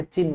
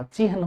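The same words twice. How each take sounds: First: चिन्ह said chinn, long n, no h sound; wrong doubled n. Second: चिन्ह said chi-han, h before n; correct h before n. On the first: Teacher showing the exam mistake, चिन्ह said chinn. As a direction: drop the h and hold the n in चिन्ह. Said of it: "चिन्ह नहीं होता". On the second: Teacher giving the exam form, चिन्ह said chi-han. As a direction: sound the h ahead of the n in चिन्ह. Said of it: "चिन्ह होता है". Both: Shown as a demonstration.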